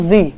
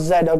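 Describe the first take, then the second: First: The letter is said as 'zee'. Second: The letter is said as 'zed'. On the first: The speaker calls it right. "this last letter is called as Z" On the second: The speaker calls it wrong. "not Z"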